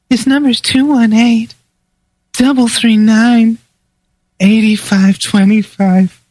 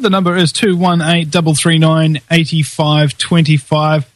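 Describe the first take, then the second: First: It is said in a put-on sexy female voice. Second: It is said in his own voice.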